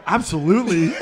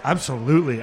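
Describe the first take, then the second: First: Absolutely with a chuckle; laughing absolutely. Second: Said in the usual way. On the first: Retold or imitated. Teammate agreeing, laughing absolutely. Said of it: "you go". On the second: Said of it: "you're like".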